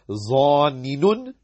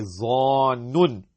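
First: The two n sounds are split by a vowel. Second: The n sound is held as one doubled consonant. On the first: The speaker calls it wrong. "It would have been zanninun, but that's wrong" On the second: The speaker calls it right. "We say zannun"

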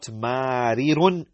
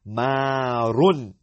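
First: A short i vowel separates the two r sounds. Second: The two r sounds merge with no vowel between. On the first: The speaker calls it wrong. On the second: The speaker calls it right.

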